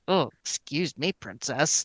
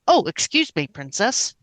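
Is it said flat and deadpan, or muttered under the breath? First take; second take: muttered; deadpan. First: It is muttered quietly under the breath. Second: It is said in a flat, deadpan voice.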